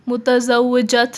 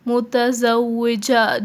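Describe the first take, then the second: First: The word ends with a clear t sound. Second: The word ends in a vowel, no t. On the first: The speaker calls it wrong. "मुतज़व्विजत नहीं है ये। काफ़ी लोग यहाँ पर मिस्टेक्स करते हैं।" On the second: The speaker calls it right. "ये साइलेंट होता है"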